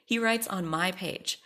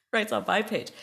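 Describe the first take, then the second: First: Said in the usual way. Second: Writes on my page, higher and louder on writes; indignant repeat, "writes" punched loud; outraged emphasis. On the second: Real, not acted. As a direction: hit "writes" in disbelief.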